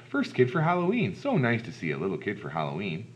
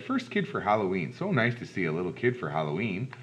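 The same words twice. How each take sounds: First: Lady greeting. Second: Lightly voiced man at the door; a hint of a friendly big man; big man greeting. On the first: Acted. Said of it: "A lady opened up the door". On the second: Big man greeting first trick-or-treater, lightly voiced welcome. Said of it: "A big man opened the door".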